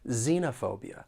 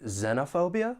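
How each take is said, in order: First: The first syllable has a long E vowel. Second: The first syllable has a short E vowel. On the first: "long E" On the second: "short E"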